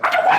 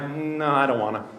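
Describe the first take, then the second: First: It is said dramatically and loudly. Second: It is said plainly and calmly.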